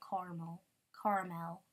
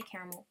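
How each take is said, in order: First: "caramel" squeezed to car-mul; car-mel pronunciation. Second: "caramel" with all three syllables, care-uh-mul; care-a-mel pronunciation. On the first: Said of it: "some people say". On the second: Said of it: "I say caramel". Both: Shown as a demonstration.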